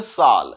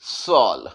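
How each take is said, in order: First: साल with an "aa" vowel; common mispronunciation. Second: सॉल with a rounded "aw"; correct open vowel. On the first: Teacher showing how people say it, mispronounced "saal". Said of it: "ऐसा बोल देते हैं". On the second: Teacher giving the right way, said "sawl". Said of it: "प्यार से थोड़ा softness के साथ". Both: Shown as a demonstration.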